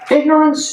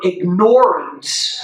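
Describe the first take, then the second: First: It is said plainly, without 'ignore' standing out. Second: It is said so that 'ignore' is clearly heard. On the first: The word loses its force. The speaker calls it wrong. "it loses its its its punch" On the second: The word carries its full meaning of ignoring. The speaker calls it right. "they fully hear the word ignore in there when you say it that way"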